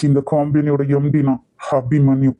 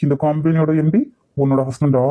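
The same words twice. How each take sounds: First: "எம் டி" stated evenly, without the questioning rise; emphatic declaration. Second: "எம் டி" lifted in a sharp questioning rise; incredulous question. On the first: MD reveals himself, "எம் டி" as an emphatic statement. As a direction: declare "எம் டி" as settled fact, measured. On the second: MD challenges her husband claim, "எம் டி" rising in disbelief. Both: Acted.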